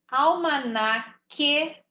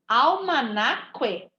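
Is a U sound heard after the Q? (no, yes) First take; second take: no; yes. First: The QU sounds as a plain K. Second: The QU sounds as K followed by U. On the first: The speaker calls it right. "Não estou ouvindo o som do U" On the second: The speaker calls it wrong. "Se fosse para eu ouvir o som do U, ... Não existe"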